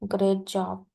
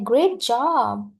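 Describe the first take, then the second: First: It sounds grudging and unenthusiastic. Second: It sounds genuinely excited and happy. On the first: The friend is not really happy about the promotion. "आईएनवी में आके बोलता है" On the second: The friend is truly happy about the promotion. "She और he is really enthusiastic"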